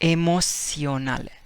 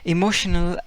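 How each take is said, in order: First: The first vowel is said like 'ay'. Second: The word has normal English vowels.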